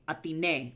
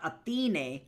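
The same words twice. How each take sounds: First: The stress falls on the A sound. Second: The stress falls away from the A sound. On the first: The speaker calls it right. "the accent is over the A sound" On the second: The speaker calls it wrong. "So not"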